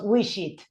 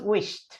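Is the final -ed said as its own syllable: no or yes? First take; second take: yes; no. First: The final -ed is its own syllable. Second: The final -ed is not its own syllable. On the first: The speaker calls it wrong. "No decimos wish it" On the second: The speaker calls it right. "decimos wished"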